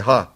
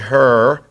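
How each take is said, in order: First: The final r sound is dropped. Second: The final r sound is pronounced. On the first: "my Brooklyn accent" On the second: "I never say her"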